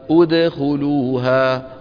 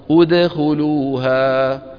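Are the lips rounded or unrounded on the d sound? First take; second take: unrounded; unrounded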